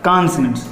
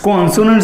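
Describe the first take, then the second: First: The first vowel sounds like an open 'a'. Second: The first vowel sounds like a rounded 'o'. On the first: The speaker calls it right. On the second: The speaker calls it wrong.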